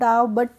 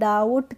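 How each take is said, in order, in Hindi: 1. t से पहले b की ध्वनि सुनाई देती है। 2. t से पहले b की कोई ध्वनि सुनाई नहीं देती। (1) "इसको डाउ बट नहीं पढ़ा है" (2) "हम बी का प्रोनाउंसिएशन नहीं कर रहे हैं"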